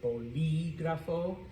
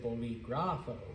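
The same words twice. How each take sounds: First: The stress is on the second syllable. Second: The stress is on the third syllable. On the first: The speaker calls it right. "that word is bolígrafo" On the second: The speaker calls it wrong. "some of you might want to pronounce it bolígrafo"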